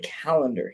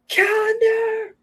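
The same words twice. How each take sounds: First: The word is said in a calm, ordinary way. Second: The word is said in a panicked, frantic way. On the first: "We don't say calendar here" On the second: "that's me panicking"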